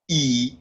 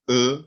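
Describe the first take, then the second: First: The letter is said with English pronunciation. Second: The letter is said with French pronunciation. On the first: "Like this is e" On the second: "but in French it's e"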